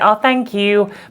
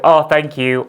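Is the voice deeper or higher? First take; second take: higher; deeper. First: It is said in a higher-pitched voice. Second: It is said in a deeper-pitched voice. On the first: This is how the speaker talks now. "I say" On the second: This is how the speaker used to talk. "a little bit deeper there"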